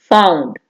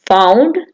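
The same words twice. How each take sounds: First: found said low with a falling, closing tune; found falling to finish; final fall. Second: found said with a rising, unfinished tune; found rising as if more follows; listing rise. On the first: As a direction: drop found down to close the list. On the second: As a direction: lift the end of found like a list item. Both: Shown as a demonstration. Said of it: "teacher recites verb forms".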